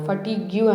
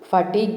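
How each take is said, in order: First: The word ends with a 'gyoo' sound. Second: The word ends with a plain 'g' sound. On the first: The speaker calls it wrong. "ఫటిగ్యూ అనేది wrong pronunciation" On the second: The speaker calls it right. "ఫటిగ్ అని పలకాలి"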